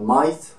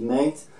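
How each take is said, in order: First: MATE said like "might", Australian-style; light Australian accent. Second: Said in the usual way. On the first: Shown as a demonstration. Vlogger showing viewers how Australians say mate, light Australian accent. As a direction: give "mate" a touch of Australian twang. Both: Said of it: "avec un petit peu l'accent australien".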